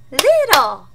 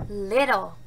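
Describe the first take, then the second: First: Louder, higher "Little."; loud echo. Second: Said in the usual way. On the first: Shown as a demonstration. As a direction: call the word back. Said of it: "You will repeat". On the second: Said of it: "repeat that word after me".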